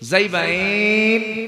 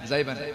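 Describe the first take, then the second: First: The word is drawn out with long vowels. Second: The word is said short and quick. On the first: "একদম লম্বা লম্বা টান দেয়" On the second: "আপনাদের এই টান দেওয়ার সময় নেই"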